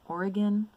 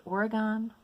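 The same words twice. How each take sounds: First: Oregon ending in a light "gun"; Oregon, last syllable shortened to "g'n"; reduced last syllable. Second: Oregon ending in a full "gone"; Oregon, last syllable rhyming with "on". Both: Shown as a demonstration. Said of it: "Is it pronounced Oregon?".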